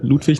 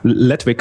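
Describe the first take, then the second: First: The name is said with a German vowel. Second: The name is said with an American vowel.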